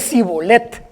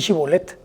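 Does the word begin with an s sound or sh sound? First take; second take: s; sh. First: The word begins with an s sound. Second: The word begins with a sh sound. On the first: This is the form the person can say. "Puede decir sibolet" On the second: This is the form the person cannot say. "no puede decir shibolet"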